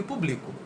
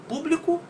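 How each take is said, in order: First: "publico" with the force on BLI; stress on middle syllable. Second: "público" with the force on PÚ; stress on first syllable. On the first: Teacher contrasting two words from the poem, "publico" stressed on BLI. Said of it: "na segunda a gente faz mais força na palavra bli". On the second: Teacher contrasting two words from the poem, "público" stressed on PÚ. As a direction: hit the opening PÚ of "público". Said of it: "no público a gente faz muito mais força". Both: Shown as a demonstration.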